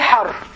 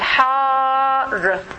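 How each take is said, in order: First: The vowel is short and clipped. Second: The vowel is long and drawn out. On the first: The speaker calls it wrong. "they forget the Alif by time. They say Har" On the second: The speaker calls it right. "always pronounce the alif very clearly"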